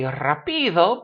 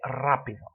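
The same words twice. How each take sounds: First: Rapido wrongly stressed as ra-PI-do; stress on middle syllable. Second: Rápido stressed as RA-pi-do; stress on first syllable. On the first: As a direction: hit the PI in rapido. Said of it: "it should be rapido". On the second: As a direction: lean on the opening RA of rápido. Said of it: "we say rápido". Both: Shown as a demonstration.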